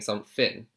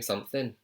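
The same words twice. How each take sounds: First: The middle sound is not a clear 'th'. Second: The middle sound is a clear 'th'. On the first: "He's not saying something" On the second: "he is saying his th"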